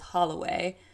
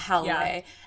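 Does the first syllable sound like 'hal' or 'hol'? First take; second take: hol; hal. First: The first syllable sounds like 'hol'. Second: The first syllable sounds like 'hal'. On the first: The speaker calls it right. "I know her last name is Holloway" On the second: The speaker calls it wrong. "not Halloway"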